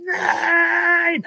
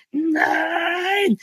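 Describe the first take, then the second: First: High wailing no; crying no. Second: High, drawn-out slow motion no. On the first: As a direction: cry out no in despair. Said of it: "und würde sagen". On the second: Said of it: "aber in Zeitlupe natürlich". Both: Pretend.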